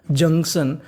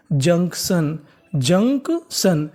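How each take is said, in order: First: Said in the usual way. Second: junction drawn out very slowly in two parts; syllable by syllable. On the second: Shown as a demonstration. Teacher showing students how junction is built, very slowly. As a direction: break junction into "junk" and "shun", stretching each. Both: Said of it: "तो पूरी meaning क्या बनी".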